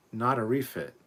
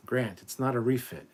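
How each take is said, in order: First: "not" hit hard and loud with a falling tune; louder insistence that it's "not a refit"; emphatic correction. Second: "not" stressed, falling and firm; correcting stress. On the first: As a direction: punch "not" as if it's the third time saying it. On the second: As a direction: lean on "not" to correct him. Correcting a viewer's comment. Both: Real, not acted.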